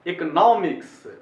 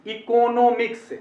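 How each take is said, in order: First: इकोनॉमिक्स as 'ek-uh-NAA-miks', loud long third syllable; English pronunciation. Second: इकोनॉमिक्स as 'i-ko-no-miks', full o sounds; wrong pronunciation. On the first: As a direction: pause on 'ek', stretch 'NAA' in इकोनॉमिक्स. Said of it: "ऐसे पढ़ना है". (इकोनॉमिक्स को 'इक-नॉ-मिक्स', 'नॉ' खींचकर) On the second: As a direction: spell out every syllable of इकोनॉमिक्स slowly. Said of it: "ऐसे नहीं पढ़ना चाहिए". (इकोनॉमिक्स को धीरे 'इ-को-नो-मिक्स') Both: Shown as a demonstration.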